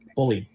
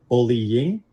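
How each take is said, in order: First: A single short vowel comes before the ending. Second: Two vowel sounds run together before the ending. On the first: "Utah speakers are typically going to end up just shortening that into a single E sound" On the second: "where you have an E and an E sound stuck together to create E-ing"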